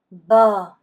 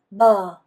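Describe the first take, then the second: Both takes have the same delivery.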